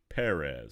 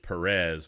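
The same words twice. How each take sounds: First: The stress is on the first syllable. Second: The stress is on the second syllable. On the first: The speaker calls it right. "That's emphasis on the first E" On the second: The speaker calls it wrong. "I've been pronouncing his name wrong"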